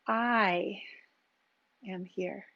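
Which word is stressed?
I. The word I carries the emphasis.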